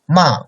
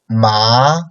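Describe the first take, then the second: First: The pitch falls downward. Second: The pitch rises upward. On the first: "fourth tone, like downcoming tone" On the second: "second tone, like upcoming tone"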